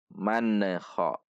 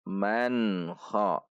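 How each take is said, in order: First: The n bounces with an extra released sound. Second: The n is clear and ends without extra sound. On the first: The speaker calls it wrong. "yang sering terjadi adalah memantul" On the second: The speaker calls it right. "dibaca izhar, jelas tidak dengung"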